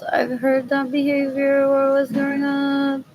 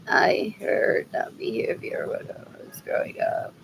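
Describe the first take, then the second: First: Said in the usual way. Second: Whispered repeat of the line. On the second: Real, not acted. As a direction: breathe it out as a whisper.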